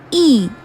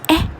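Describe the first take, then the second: First: The vowel is the long sound, as in teen. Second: The vowel is the short sound, as in ten. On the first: "a long sound e as in the word teen" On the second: "a short sound eh as in the word ten"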